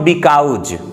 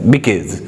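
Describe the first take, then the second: First: The second syllable has an 'ow' vowel, like 'cows'. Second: The second syllable has an 'aw' vowel, like 'caws'. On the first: The speaker calls it wrong. "But it is not बिकाउज" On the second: The speaker calls it right. "बिकाउज नहीं होता है"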